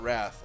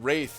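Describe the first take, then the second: First: The vowel is a short 'a' sound. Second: The vowel is a long 'ay' sound. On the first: The speaker calls it wrong. "I've been saying Wrath all this time" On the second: The speaker calls it right. "Wraith, not Wrath"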